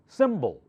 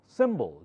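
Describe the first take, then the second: First: The second vowel is a weak schwa sound. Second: The same.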